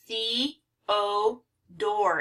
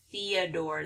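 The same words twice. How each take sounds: First: "The, O, door" as three parts, thee - oh - door; syllable by syllable. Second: Said in the usual way. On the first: Shown as a demonstration. Teacher breaking down Theodore, syllable by syllable. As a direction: separate "The, O, door" with pauses, long ee first. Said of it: "but it's a long E here". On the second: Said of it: "but Theodore".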